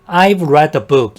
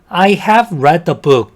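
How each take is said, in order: First: 'I have' is shortened to one syllable. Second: 'I have' is said as two full words.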